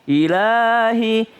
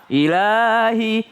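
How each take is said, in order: No difference in how they are said.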